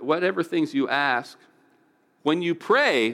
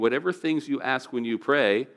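First: There is a pause before "when you pray." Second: It runs on with no pause before "when you pray."

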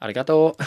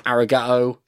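First: It is said with a put-on Japanese accent. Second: It is said with a plain English accent.

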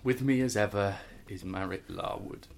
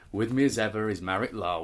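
First: It is spoken in an even flatter, wearier tone. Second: It is spoken in a flat, bored tone. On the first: "And more bored" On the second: "more and more bored"

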